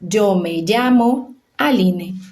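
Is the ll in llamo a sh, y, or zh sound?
zh. The ll sounds like the s in measure. This is how most countries of the Americas say it. "vão ler o Y e a doble L com som de J"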